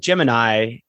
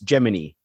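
First: The word ends with an 'eye' sound. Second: The word ends with an 'ee' sound. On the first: This is the everyday way of saying the name. "How come it's always Gemini" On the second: This is how the space program says the name. "when we talk about the space program, it's Gemini?"

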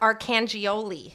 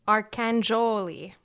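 First: The ending has separate 'gee-oh-lee' syllables. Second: The ending sounds like 'Jolie'. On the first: The speaker calls it wrong. "Not Arcangioli" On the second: The speaker calls it right. "Jolie. Like Angelina Jolie"

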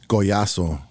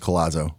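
First: The name is pronounced the Spanish way. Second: The name is pronounced the American English way. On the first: This is the name's original pronunciation. "It's Goyasso" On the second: This is how people say it locally. "but I live in West Michigan, so it's Colazzo"

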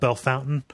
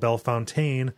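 First: The name is said in the local Ohio pronunciation. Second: The name is said in a French-style pronunciation. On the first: "is called Bellefountain" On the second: "something that is logically called Bellefontaine"

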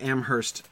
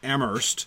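First: The h sound is pronounced in the middle. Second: The h sound is dropped from the middle. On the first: This is the town in New Hampshire. "In New Hampshire, you pronounce the H" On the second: This is the town in Massachusetts. "you don't pronounce the H"

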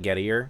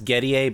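First: The name has an American pronunciation. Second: The name has a non-American pronunciation. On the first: This is how the man himself says it. The speaker calls it wrong. "he pronounces it Gettier because he's an American idiot" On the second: This is the name's real pronunciation. The speaker calls it right. "Whose real name is Gettier"

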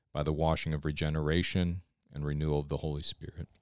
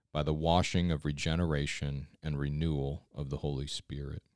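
No difference in how they are said.

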